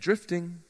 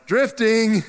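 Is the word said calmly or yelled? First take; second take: calmly; yelled. First: It is said calmly and quietly. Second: It is yelled loudly.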